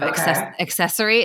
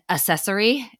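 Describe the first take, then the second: First: The word starts with a k sound. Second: The word starts without a k sound. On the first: The speaker calls it right. "it has two C's in it" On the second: The speaker calls it wrong. "everyone does say accessory, and it killed me"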